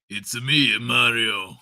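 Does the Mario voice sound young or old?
old. It is an older-sounding Mario voice.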